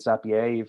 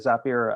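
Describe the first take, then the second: First: The name is said with a French-style pronunciation. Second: The name is said with an ordinary English pronunciation.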